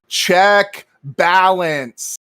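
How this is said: It is said in a stiff, automated phone voice.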